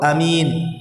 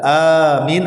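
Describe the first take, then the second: First: The first vowel is said short. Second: The first vowel is drawn out long. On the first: "memendekkan alif" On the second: "memanjangkan alif"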